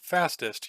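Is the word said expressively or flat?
flat. The word is said flat, without inflection. The word is said on its own, out of context. The speaker calls it wrong. "you don't say it like fastest"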